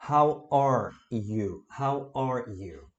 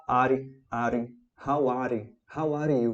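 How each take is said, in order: First: "How are you" very slowly, "are" as one R-ending syllable; slow pronunciation model. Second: "are" split into two syllables, "ah-ree"; learner's mispronunciation. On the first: Shown as a demonstration. Teacher modelling the correct phrase, slow clear "How are you". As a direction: spell out "How are you" word by word, drawn out. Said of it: "você vai falar". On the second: Retold or imitated. Teacher imitating own beginner attempts, "are" as "ah-ree". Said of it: "Toda vez eu vou tentar falar".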